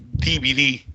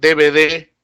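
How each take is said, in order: First: The letters are pronounced as in Peru. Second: The letters are pronounced as in Spain. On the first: "nosotros llamamos" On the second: "en España llaman"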